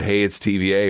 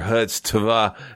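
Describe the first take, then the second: First: The start is said as three words, hey it's. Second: The start is said as one syllable, hutz. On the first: This is the intended reading of the handle. The speaker calls it right. "you can follow me personally at" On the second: This is how others misread the handle. The speaker calls it wrong. "as a lot of people try to pronounce it"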